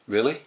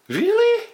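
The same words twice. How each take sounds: First: It is said in an uninterested, flat way. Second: It is said in a happy, delighted way. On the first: The listener does not care much about the news. "we're not that interested. Maybe you go like" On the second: The listener is pleased by good news. "when the news is really good and you're really happy"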